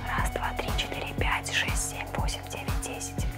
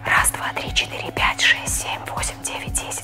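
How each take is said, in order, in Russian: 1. Шёпот слабый и без опоры. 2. Шёпот сильный и с опорой.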